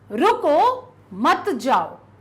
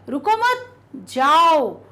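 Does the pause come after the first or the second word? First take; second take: first; second. First: There is a pause after the first word. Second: There is a pause after the second word. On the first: The listener is being told to stop. "यहां पर आपको रुकने के लिए कहा जा रहा है" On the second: Permission to go is being given. "रुको मत, आवश्यकता नहीं है, तुम तो जाओ"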